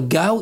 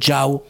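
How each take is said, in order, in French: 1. Le mot commence par un G dur. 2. Le mot commence par un son J. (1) "Au lieu de dire Gao" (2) "ils disent Jiao"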